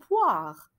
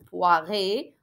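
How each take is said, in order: First: The ending is silent after the final consonant. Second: The ending is pronounced as an extra vowel. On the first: The speaker calls it right. "نقول poire" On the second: The speaker calls it wrong. "ما نقولش bien sûr poiré"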